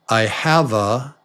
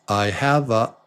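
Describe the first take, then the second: The two takes are said the same way.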